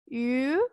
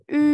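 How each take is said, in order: First: It starts with a y glide before u. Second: It is one steady i sound with rounded lips. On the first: The speaker calls it wrong. "ataupun yu" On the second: The speaker calls it right. "seperti huruf I, tetapi mulutnya berbentuk seperti mengucapkan huruf U"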